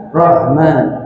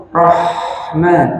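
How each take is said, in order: First: Rahman said as rohman with rounded o; wrong rounded Rahman. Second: Rahman with a light a, not rounded; correct Rahman. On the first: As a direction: darken the vowel in Rahman wrongly. (Rahman salah dibaca rohman) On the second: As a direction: say Rahman with open a. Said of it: "jangan Rahman". (Rahman yang benar) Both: Shown as a demonstration.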